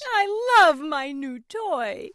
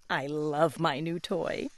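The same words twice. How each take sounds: First: High, slow, drawn-out cry of delight; Piggy yells her love for the toy; Piggy yells with joy. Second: Soft, slow, loving; hugging the toy, say it gently; tender Piggy. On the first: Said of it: "and she yells". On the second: Piggy hugs her toy again. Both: Acted.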